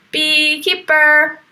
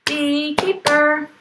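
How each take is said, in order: First: "Beekeeper" said slowly and louder, syllable by syllable; slow clear word. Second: Slow repeat. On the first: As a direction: model "Beekeeper" for children to echo. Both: Shown as a demonstration. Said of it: "Here's the beekeeper".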